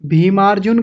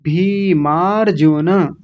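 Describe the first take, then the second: First: भीमार्जुन quickly, final n without its vowel; common mispronunciation demo. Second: भीमार्जुन slowly as bhee-maar-ju-na; full final na. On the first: Teacher imitates a common mistake, भीमार्जुन ending on bare n. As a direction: clip off the last vowel of भीमार्जुन. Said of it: "यहाँ बहुत गलतियाँ होती हैं". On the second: Teacher shows the correct form, slow भीमार्जुन ending in na. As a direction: draw out भीमार्जुन and voice the last na fully. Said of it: "ऐसा बोलेंगे". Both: Shown as a demonstration.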